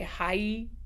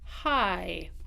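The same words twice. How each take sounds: First: The diphthong ends in a closed ee sound. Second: The diphthong ends in a more open vowel. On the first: "In Utah, we have a really closed E on the end of our diphthongs" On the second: "we are going to use an open second syllable"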